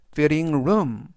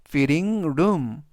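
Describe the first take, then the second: The two takes are said the same way.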